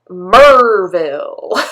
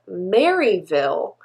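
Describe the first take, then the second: First: The first part sounds like 'Mer'. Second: The first part sounds like 'Mary'. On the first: It is how locals actually say it. "but it is pronounced Merville" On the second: It follows the written spelling. "spelled Maryville"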